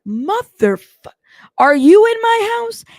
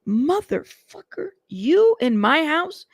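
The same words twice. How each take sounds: First: Much higher, louder shouted demand; shouting. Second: Slow, higher demand in disbelief; angry. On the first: [name] repeating his question to [name], now shouting. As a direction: let it burst out, furious. Retold angry phone call, repeated. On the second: [name] on the phone confronting [name], angry demand. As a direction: hit him with it, drawn out and suspicious. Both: Retold or imitated.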